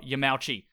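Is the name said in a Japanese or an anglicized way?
anglicized. The name is said with English-style pronunciation. The speaker calls it wrong. "not Yamauchi"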